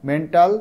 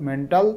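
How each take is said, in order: No difference in how they are said.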